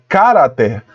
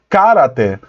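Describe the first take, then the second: First: The stress is on the first syllable. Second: The stress is on the first syllable.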